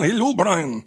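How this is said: It is said in a put-on French accent.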